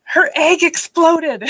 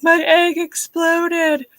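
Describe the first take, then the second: First: Put-on high, drawn-out child voice; mock kid announcing a disaster; imitating son. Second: High, drawn-out mock wail; retold tearful whine, stretched out; imitated crying. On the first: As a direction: stretch it out in a high little-boy voice. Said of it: "And, and my son says". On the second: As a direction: wail it like a hammed-up sob story. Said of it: "I'm sitting here crying".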